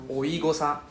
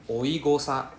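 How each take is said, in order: No difference in how they are said.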